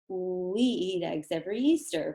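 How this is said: It flows smoothly on one continuous breath.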